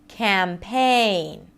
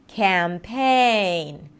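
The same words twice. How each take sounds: The two takes are said the same way.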